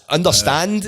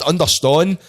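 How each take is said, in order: First: "understand" with a clear "-stand" ending; standard pronunciation. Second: "understand" said as "underston"; Scottish-style "understand", ending like "stone" cut short; Scottish pronunciation. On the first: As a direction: say "understand" with an open a and final d. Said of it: "is the word". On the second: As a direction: round the vowel of "understand" to "-ston", dropping the d. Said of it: "but every word we use, like understand". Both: Shown as a demonstration.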